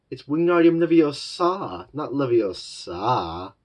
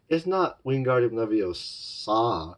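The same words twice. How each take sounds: First: "Wingardium Leviosa" high and loud, the corrected stress, then "not Leviosa" slow; lightly voiced know-it-all correcting the spell. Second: "Wingardium Leviosa" said slowly, as the wrong version; the mistaken take of "Wingardium Leviosa"; wrong spell. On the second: Retold or imitated. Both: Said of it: "I can't do the voice well".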